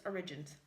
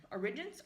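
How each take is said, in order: First: Origins. falling, low and soft; confirming. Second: Origins? with a rising tune; checking question. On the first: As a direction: settle it: Origins. going down. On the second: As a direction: ask back Origins? going up. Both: Real, not acted. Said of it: "Resident Evil Origins Collection".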